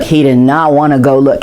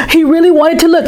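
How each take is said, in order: First: Said in the usual way. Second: Higher, keen; eager. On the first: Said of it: "contrasting takes". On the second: Acted. Boy torn between wanting to look, eager. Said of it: "contrasting takes, eager then reluctant".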